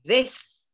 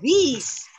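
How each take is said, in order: First: This read as "these", with a long ee and a buzzing z at the end. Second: This read with a short i and a hissing s at the end. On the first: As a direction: say This like the English word these. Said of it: "Yang atas bacanya this". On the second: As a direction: say this with a short i, not a long ee. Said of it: "yang bawah bacanya". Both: Shown as a demonstration.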